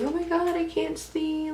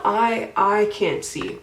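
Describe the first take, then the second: First: High-pitched mock complaint; put-on high voice for "I can't see"; imitating roommates. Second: I drawn out and hit hard; slow, emphatic "I, I", insisting it is literally true; stress on I. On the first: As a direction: mimic roommates whining in a high voice. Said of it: "my roommates talk about all the time, being like". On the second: Real, not acted. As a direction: lean loudly on each I.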